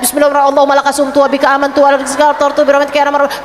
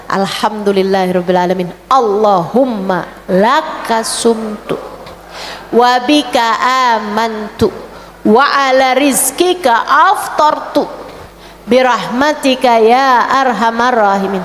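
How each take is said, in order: First: Mock rushed prayer said in one breath; rushed gabbled prayer. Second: Unhurried, word by word prayer recital; slow, careful breaking-fast prayer; slow recited prayer. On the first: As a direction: rattle the prayer off very fast. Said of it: "bukan di saat denger adzan". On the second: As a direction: savour each word of the prayer, slowly. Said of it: "Jadi itu doa dibacanya". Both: Shown as a demonstration.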